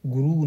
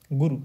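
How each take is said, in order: First: गुरु with the final u drawn out to a long oo. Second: गुरु with a short, quick final u; clipped short u at the end of गुरु. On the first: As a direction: stretch the last vowel of गुरु. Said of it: "नहीं". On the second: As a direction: say गुरु ending on a brief u. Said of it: "सही है". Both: Shown as a demonstration.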